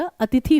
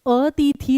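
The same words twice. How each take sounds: First: "अतिथि" with short i in ति and थि; short-vowel pronunciation. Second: "अतिथि" said with drawn-out ee, as अतीथी; long-vowel mispronunciation. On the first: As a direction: keep both i sounds short in "अतिथि". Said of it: "दोनों को छोटी की मात्रा आएगी". ("अतिथि" में छोटी इ की मात्रा) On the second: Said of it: "अतिथि नहीं होता". ("अतिथि" को दीर्घ ई से, "अतीथी") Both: Shown as a demonstration.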